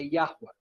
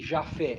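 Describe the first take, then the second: First: The name has a w sound in the middle. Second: The name has an f sound in the middle. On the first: The speaker calls it right. "é Yahweh" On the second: The speaker calls it wrong. "nem Jafé"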